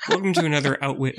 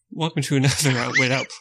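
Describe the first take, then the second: First: Said in the usual way. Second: Laughing. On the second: Real, not acted. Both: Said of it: "don't make me do it again".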